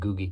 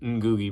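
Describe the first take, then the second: First: The name begins without that 'ng' sound. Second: The name begins with a sounded 'ng'. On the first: This is how a source online says it. The speaker calls it right. "online it said his name is Ngugi" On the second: This is how the speaker usually says it. The speaker calls it wrong. "I always pronounce his name Ngugi because it's got an N G"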